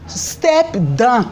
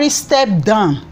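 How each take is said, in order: First: "Step down" pitched a little up, each word set apart; emphatic capital letters. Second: Said in the usual way. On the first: Real, not acted. Vlogger demanding the president resign, emphatic "Step down". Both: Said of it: "Capital letter step down".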